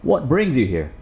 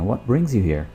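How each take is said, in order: First: It is said in an angry, stern tone. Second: It is said in a friendly, frank tone.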